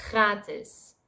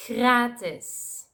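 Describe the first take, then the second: First: Gratis opening with grinding G, R swallowed; harsh Dutch G. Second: Gratis with soft hissed G before R; angry-cat hiss opening Gratis; soft Dutch G. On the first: Demonstrating the other G, gratis with harsh G. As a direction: scrape G and French R together in gratis. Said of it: "with the harsh G sound". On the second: Teaching the last word, Gratis with soft G. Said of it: "that's the soft G sound". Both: Shown as a demonstration.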